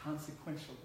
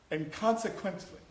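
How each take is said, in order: First: Consequentially said as the corrected word; consequentially as the second, corrected try; self-correction. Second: Consequently said as the wrong word; consequently as the mistaken word; slip of the tongue. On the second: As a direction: stumbles on consequently before correcting. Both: Real, not acted. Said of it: "I can't even say that right".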